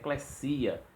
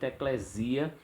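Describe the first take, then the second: First: The middle consonant is a voiceless s sound. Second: The middle consonant is a voiced z sound. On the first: The speaker calls it right. "aparece lá um sigma, então tem que dizer eclesia" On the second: The speaker calls it wrong. "o pessoal usa muito eclesia com som de Z"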